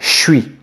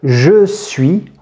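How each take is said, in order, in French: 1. Le mot « je » est réduit à un son « ch ». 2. Le mot « je » se prononce en entier, avec sa voyelle. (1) "On va souvent transformer le « je » en « ch »" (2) "de dire « je suis »"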